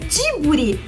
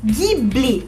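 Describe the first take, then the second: First: The name begins with a soft J sound. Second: The name begins with a hard G sound. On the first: This is the Japanese pronunciation. "a pronúncia japonesa fica o nome Jiburi" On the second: This is the Italian pronunciation. "o G H I tem exatamente o mesmo som do que o G U I"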